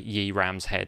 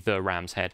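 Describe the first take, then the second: First: The first word starts with a y sound. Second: The first word starts with a th sound. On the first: The speaker calls it wrong. "don't pronounce it Yi" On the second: The speaker calls it right. "it's meant to be the Ram's Head"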